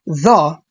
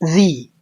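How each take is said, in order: First: The vowel is short and open, like 'thuh'. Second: The vowel is long and high, like 'thee'. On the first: The next word starts with a consonant. "نطقها the مفتوحة كده لو الكلمة اللي بعدها فيها حرف ساكن" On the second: The next word starts with a vowel. "اعتبرها مكسورة كده فبقول the"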